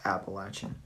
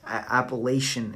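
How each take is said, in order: First: The word is said the Southern local way. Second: The word is said the Northern outsider way. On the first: This is how locals and native people say it. The speaker calls it right. "It's pronounced Appalachian" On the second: This is how outsiders from the north say it. The speaker calls it wrong. "Appalachian is a colonized version of the word"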